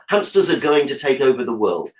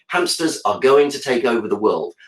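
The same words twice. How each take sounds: First: The words are contracted, with "are" reduced to schwa. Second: The words are said in full, unreduced form.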